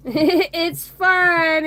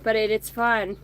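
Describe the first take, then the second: First: "fun" said higher and louder, with a lift; emphatic repeat. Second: Said in the usual way. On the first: Shown as a demonstration. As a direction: hit "fun" again, bigger.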